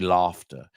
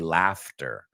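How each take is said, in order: First: It is said in a British accent. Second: It is said in an American accent. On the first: This is how other people say it. "I'm pronouncing it British. They say laughter" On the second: This is how the speaker normally says it. "I say laughter"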